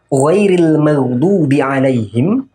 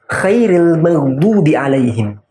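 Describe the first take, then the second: First: The first word begins with a voiced ghain sound. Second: The first word begins with a voiceless kha sound. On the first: Not those who earned anger. The speaker calls it right. "itu artinya bukanlah orang-orang yang engkau murkai" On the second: The best of those who earned anger. The speaker calls it wrong. "ketika huruf ghain berubah menjadi huruf kha"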